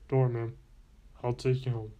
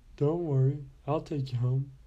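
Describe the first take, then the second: First: It is said in a much deeper voice. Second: It is said in a higher voice.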